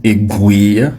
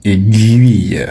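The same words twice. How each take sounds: First: «aiguille» as "é-gui", with no u sound; «aiguille» said wrongly as "éguille". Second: «aiguille» slow, with a clear "gu-i" glide; «aiguille» said slowly as "é-gu-ille"; correct aiguille. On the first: Teacher imitates what others say. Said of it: "d'autres disent". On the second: Teacher gives the right pronunciation of aiguille. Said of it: "la bonne prononciation". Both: Shown as a demonstration.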